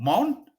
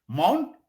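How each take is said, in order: No difference in how they are said.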